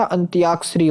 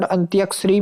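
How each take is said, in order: First: "अंत्याक्षरी" with long "tyaa"; long middle aa. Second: "अंत्याक्षरी" with short "tya"; short middle vowel. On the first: Teacher giving students the correction, अंत्याक्षरी with long aa. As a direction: say अंत्याक्षरी as "antyaakshri". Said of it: "अंत्याक्षरी होता है". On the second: Teacher showing students the mistake, अंत्याक्षरी with short a. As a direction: say अंत्याक्षरी as "antyakshri". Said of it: "में नहीं होता". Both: Shown as a demonstration.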